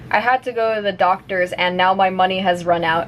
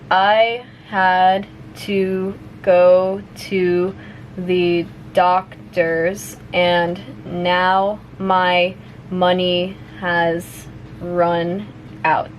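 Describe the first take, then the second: First: The sentence is spoken fast, at natural speed. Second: The sentence is spoken at medium speed. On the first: "one more time at normal speed" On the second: "a little bit faster now"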